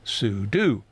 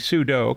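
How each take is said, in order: First: It ends with an 'oo' vowel, rhyming with do. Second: It ends with an 'oh' vowel, rhyming with judo. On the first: "short for super user do. So sudo" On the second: "compare it to judo"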